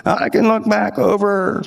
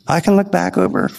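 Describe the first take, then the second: First: Put-on slow, drawn-out old man voice, higher pitched; old man impression. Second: Said in the usual way. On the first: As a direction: imitate an elderly man reminiscing slowly. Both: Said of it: "he talked like this".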